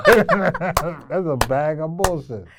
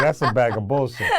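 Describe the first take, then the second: First: Slower, louder, laughing through it; slow laughing repeat. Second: Blunt put-down said through a laugh; laughing mock verdict. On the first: Retold or imitated. Coach repeats the harsh verdict to his student, slow and laughing. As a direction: savor the joke, slow and laughing. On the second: Coach jokes about a harsh verdict on the answer, laughing. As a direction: laugh as you trash the answer. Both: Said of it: "I could've been like".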